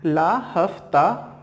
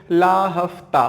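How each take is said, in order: First: Slow, deliberate ला हफ्ता; very slow mnemonic. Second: Slow mnemonic. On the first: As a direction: stretch out ला हफ्ता for memorising. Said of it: "ठीक है". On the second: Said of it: "कैसे याद रखें". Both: Shown as a demonstration.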